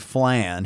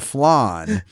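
First: The vowel rhymes with man. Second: The vowel does not rhyme with man. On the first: "So it was man, flan" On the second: "I guess [name] was proper enough"

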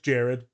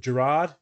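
First: The name is pronounced as Jared. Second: The name is pronounced as Gerard. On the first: The speaker calls it right. "it's Jared" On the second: The speaker calls it wrong. "I said it was Gerard"

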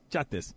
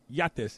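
First: The name begins with a 'j' sound. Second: The name begins with a 'y' sound. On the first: The speaker calls it right. "It's jot this" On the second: The speaker calls it wrong. "it's not yat this"

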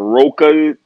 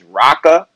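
First: The first syllable does not sound like 'rock'. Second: The first syllable sounds like the word 'rock'. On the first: The speaker calls it wrong. "there's been a lot of Roca pronunciations. We don't know what that is" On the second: The speaker calls it right. "The man's name is Rocka. ... But the Rock, that's where it starts"

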